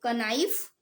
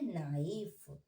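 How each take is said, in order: First: The k sound is pronounced at the start. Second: The k sound is silent at the start. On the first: The speaker calls it wrong. "क्या इसे आप कनाइफ पढ़ेंगे" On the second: The speaker calls it right. "इसमें के silent होता है"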